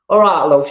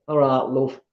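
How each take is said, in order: First: "All right, love" called out louder in a hammed-up Yorkshire accent; louder Yorkshire greeting. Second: Yorkshire greeting. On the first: Greeting the chat before the West Yorkshire reading, in a hammed-up Yorkshire accent. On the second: Pretend. Greeting the chat before the West Yorkshire reading, in a light Yorkshire accent. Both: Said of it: "I don't know if that's Yorkshire or not".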